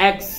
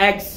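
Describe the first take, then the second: No difference in how they are said.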